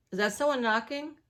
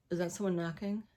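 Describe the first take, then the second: First: Higher, louder "Is that someone knocking?"; alarmed, listening for the door; startled question. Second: Said in the usual way. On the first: Real, not acted.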